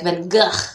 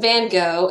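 First: The name is said with Dutch-style sounds. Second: The name is said with American English sounds. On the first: "I'm sure it's more like Van Gogh" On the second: "that's like the American pronunciation of it"

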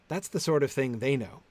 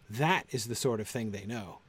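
First: The stress falls on the word 'they'. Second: The stress falls on the word 'know'. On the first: Their knowledge is contrasted with what we know. The speaker calls it right. "I would be tempted to lay the stress on the they" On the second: It simply states what they know. The speaker calls it wrong. "Not as"

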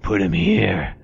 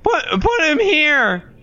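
First: It is said in a smooth, slick voice. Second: It is said in a squeaky teenage voice.

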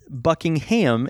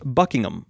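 First: The final syllable is stressed and fully pronounced. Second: The final syllable is light and reduced. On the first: The speaker calls it wrong. "it's not Buckingham" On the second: The speaker calls it right. "you don't need to put a lot of intonation on the ending"

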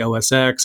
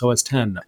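First: The last part is said as the letter ex. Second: The last part is said as the number ten. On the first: The speaker calls it wrong. "when people say OS X, it's like, no" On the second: The speaker calls it right. "it's OS 10"

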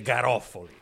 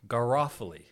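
First: The name is said with a native Italian pronunciation. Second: The name is said with an anglicized English pronunciation. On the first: "You don't have to pronounce it like you're a native Italian speaker" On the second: "You anglicize it"

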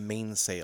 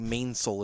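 First: The second syllable is said fully. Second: The second syllable is shortened and reduced. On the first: "instead of mainsail" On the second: "people on boats will say mainsail"

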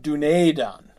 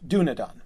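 First: The vowel of the second syllable is long. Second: The vowel of the second syllable is short. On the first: The speaker calls it wrong. "The E is not a long E. It's not Dúnedain, right?" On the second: The speaker calls it right. "The E is short"

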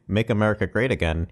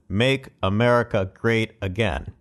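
First: The stress is not on again. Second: The stress is on again.

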